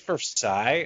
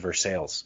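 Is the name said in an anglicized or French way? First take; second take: French; anglicized. First: The name is said in the French way. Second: The name is said in an anglicized way. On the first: The speaker calls it wrong. "which I messed up because I was like, hey, is this Versailles?" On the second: The speaker calls it right. "what are you talking about? This is Versailles"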